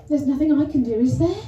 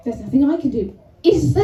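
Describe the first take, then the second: First: Said in the usual way. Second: Self-important. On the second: Retold or imitated. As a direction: make IS THERE a cocky, loud challenge. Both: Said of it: "But it came out like".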